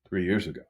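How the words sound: The pitch falls at the end. It shows the listener understands. "I would just downward inflect three years ago"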